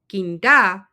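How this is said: It is said with a questioning tune. The speaker is asking something. "that's a question"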